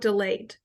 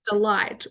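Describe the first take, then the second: First: The second syllable sounds like 'leet'. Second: The second syllable sounds like 'light'. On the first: "people would um, mistake the pronunciation" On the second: "people would um, mistake the pronunciation"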